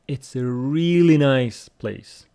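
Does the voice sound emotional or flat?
emotional. It is said with lively, emotional intonation. The speaker calls it right. "look at the intonation as well"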